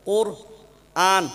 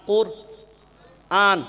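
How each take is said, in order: Both takes have the same delivery.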